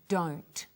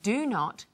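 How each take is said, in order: First: It is said as one contracted syllable. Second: It is said as two full words.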